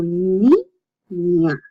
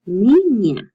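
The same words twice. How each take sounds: First: "ni, ña" as two separate syllables with a pause. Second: Said in the usual way. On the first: Shown as a demonstration. Teacher showing the ñ, "ni, ña" broken in two. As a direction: sound out "ni", stop, then "ña". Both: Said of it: "you separate the two".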